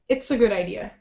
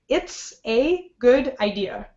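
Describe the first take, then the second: First: The words are reduced and run smoothly together. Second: Each word is said fully and separately. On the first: The speaker calls it right. "Second, weak version" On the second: The speaker calls it wrong. "The first one was the strong version"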